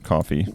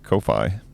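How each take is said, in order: First: The name is said just like the word coffee. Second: The name is not said like the word coffee. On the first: "depending on how you pronounce it" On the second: "depending on how you pronounce it"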